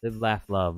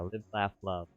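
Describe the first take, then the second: First: The phrase is said quickly. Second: The phrase is said at a normal speed.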